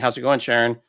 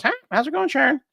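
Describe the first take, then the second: First: Said in the usual way. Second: Very high mock parrot voice; the parrot copying the husband, pitched very high. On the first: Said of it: "Sharon's husband saying". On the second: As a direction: squawk the greeting like a parrot. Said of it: "So now the parrot goes".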